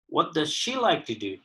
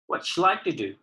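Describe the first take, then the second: First: Each word is said fully and separately. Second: The unstressed words are shortened and run together.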